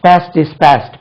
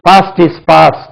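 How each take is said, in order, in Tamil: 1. past இல் உள்ள உயிரெழுத்து குறுகிய தட்டையான a ஒலி. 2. past இல் உள்ள உயிரெழுத்து நீண்ட ah ஒலி.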